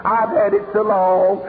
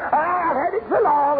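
First: Slow, lightly voiced excuse; mild mock member. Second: Higher, whiny mock of a tired member; mocking whine. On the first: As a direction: say it as the tired old member. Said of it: "somebody stand up and say". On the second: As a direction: mimic the excuse with a sneer. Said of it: "Have you ever heard that stuff".

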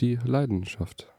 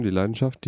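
First: Slow, soft, mock-profound; slow and hushed, like a deep saying. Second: Said in the usual way.

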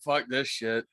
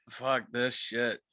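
First: Said in the usual way. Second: Slow drawn-out curse. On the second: Retold or imitated. Narrator quoting himself bailing, slow drawn-out curse. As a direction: stretch out "Fuck this shit" slowly, each word dragged. Fleeing hotel, repeating the curse.

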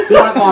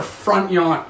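First: Said in the usual way. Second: "front yawn" said with a y sound in place of the l; slip of the tongue. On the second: Real, not acted. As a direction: trip over "front yawn", saying yawn for lawn. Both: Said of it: "like, front lawn".

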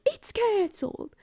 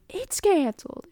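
First: High, put-on voice for a friend; admittedly inaccurate high impression of a friend; silly friend impression. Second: Repeated friend impression. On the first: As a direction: mimic her with a pitched-up squeak. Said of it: "Belle doesn't sound like that, ... only thing I have for impression". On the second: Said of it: "only thing I have for impression".

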